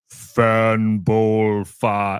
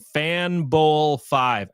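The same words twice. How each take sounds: First: It is said in a deeper voice. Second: It is said in his normal voice.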